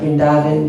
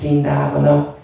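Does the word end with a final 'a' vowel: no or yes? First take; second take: no; yes. First: The word ends without a final 'a' vowel. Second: The word ends with a final 'a' vowel. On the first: The speaker calls it wrong. "It's not Vrindavan" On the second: The speaker calls it right. "but Vrindavana"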